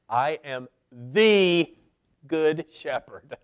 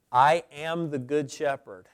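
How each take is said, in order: First: Slow, with "good" singled out after a pause; stress on GOOD. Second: Plain first reading; "I am the good shepherd" said plainly with a falling tune; plain stress. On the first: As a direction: lean on "good" in "I am the good shepherd". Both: Shown as a demonstration. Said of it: "Or maybe to change the emphasis".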